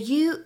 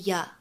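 First: The word has a full 'oo' vowel. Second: The word has a reduced 'uh' vowel. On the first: "the you" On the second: "is usually ya"

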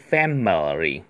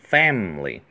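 First: The middle vowel is clearly pronounced. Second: The middle vowel is dropped. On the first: "你可以读成family，有个哈" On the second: "但美音一般都是family，直接读个没有哈"

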